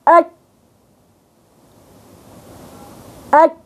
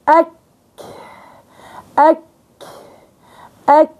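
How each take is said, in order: First: The k is stopped with no breathy release. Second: The k is released with a breathy puff. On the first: "حبست أنا الصوت" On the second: "بفتح لها جريان النفس"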